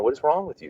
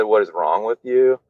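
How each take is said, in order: First: A mild mock of a panicked dad, higher; imitating dad flipping out. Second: Said in the usual way. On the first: Father confronts son at the bedroom wall, mildly mock alarmed and higher. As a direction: lightly act out a father's alarmed outburst, pitched up. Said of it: "He was like". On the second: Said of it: "when he said".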